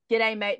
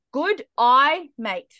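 First: Said in the usual way. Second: Exaggerated Australian "Good eye, mate"; Australian accent. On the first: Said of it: "If you wanna say". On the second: Shown as a demonstration. Teaching guys an Australian accent trick, exaggerated Australian accent. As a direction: demonstrate Australian with a raised, punched "Good eye". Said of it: "in an Australian accent".

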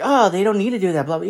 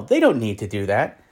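First: Higher, dismissive mock voice; mocking the Young Turks. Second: Said in the usual way. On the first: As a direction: sneer it like a smug pundit. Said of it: "the Young Turks were like". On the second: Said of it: "Yeah, no".

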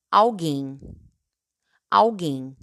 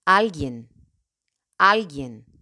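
First: "alguien" as Portuguese alguém, stress at the end; Portuguese pronunciation. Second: "alguien" in Spanish, stressed on AL. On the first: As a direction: say "alguien" as ow-GAYN, nasal ending. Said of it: "En portugués". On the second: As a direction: say "alguien" as AL-gyen. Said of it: "En español". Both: Shown as a demonstration.

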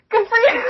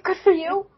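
First: Teary, laughing Good for you, much higher, louder; laugh-crying Good for you. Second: Rising, moved good for you, higher; mock tearful cheer, higher; touched. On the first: Retold or imitated. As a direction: choke up on it. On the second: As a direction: cheer them on. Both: Tearing up at interviews.

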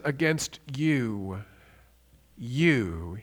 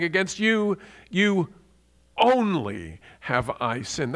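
First: "you" said twice with a pause between; "Against you," slow, then a lone low "you"; repeated for emphasis. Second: "you" twice, then a slow "only have I sinned"; "you only" drawn out and weighty; double emphasis. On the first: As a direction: lean on the second "you" after a long pause. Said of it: "he's repeating the word you". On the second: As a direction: land hard on "you, you only". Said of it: "he doubly emphasizes it". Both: Shown as a demonstration.

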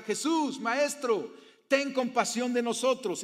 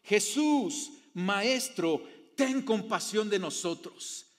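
First: Higher, louder cry for mercy; lepers shouting. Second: Raised voice, a mild cry for mercy; lepers calling out. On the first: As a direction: shout it across the distance, begging. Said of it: "le gritaron porque no se podían acercar". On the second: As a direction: call out to the Master from a distance. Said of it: "le gritaron". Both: A narrator's reading.

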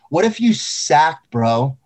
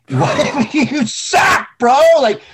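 First: Said in the usual way. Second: High, slow, cracking up mid-question; half-laughing, half-yelled warning; laughing shout. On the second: Real, not acted. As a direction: yell it while laughing at the thought. Repeated while laughing and shouting.

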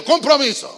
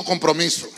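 First: Loud, higher rallying shout; strong call-out. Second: Said in the usual way. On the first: Shown as a demonstration. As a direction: lead the congregation in shouting it. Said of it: "Vamos fuerte". (grito fuerte para que repitan) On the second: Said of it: "Diga conmigo".

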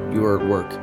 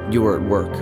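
No difference in how they are said.

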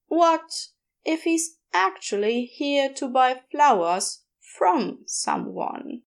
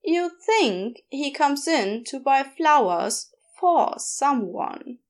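First: "from" slowed and leaned on; stress on from. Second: Said in the usual way. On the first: Acted. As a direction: hit "from" to flip the meaning. Bea contrasting for and from.

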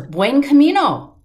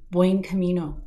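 First: The same greeting now near and louder, higher; closer, louder. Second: A faint greeting from somewhere behind; soft, far off. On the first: The stranger's greeting now close behind, louder. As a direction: call it out as if just behind her. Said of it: "I heard it closer". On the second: A stranger greets the pilgrim from far behind, soft. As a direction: keep it soft, as if heard from a distance. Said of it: "it was kind of soft in the distance". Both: Retold or imitated.

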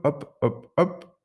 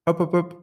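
First: Falling, weaker hops; tiring hops. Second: Higher, springy hop hop hop; bouncy hops. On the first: Tired parrot hopping less and less, weaker falling hops. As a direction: let the hops run out of energy. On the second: Parrot still hopping along, higher springy hops. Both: Acted. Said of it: "de moins en moins vigoureux".

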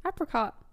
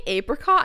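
First: Apricot said as AP-ri-cot with a short A as in cat; Apricot starting with a short A like apple; AP-ricot. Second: Apricot said as AY-pri-cot with a long A; apricot with the first syllable AY; AY-pricot. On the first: Shown as a demonstration. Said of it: "No, it's apricot". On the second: Retold or imitated. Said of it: "You say apricot".

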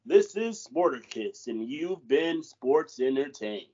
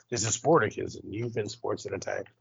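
First: Slow, measured sign-off, stretched out; co-host asked for a news sign-off, slow anchor read. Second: News sign-off. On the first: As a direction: read it like closing the evening news, slowly. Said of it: "that was lame". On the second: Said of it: "Say it like you're on a, a news station and, like, you're signing off for the day". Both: Shown as a demonstration.

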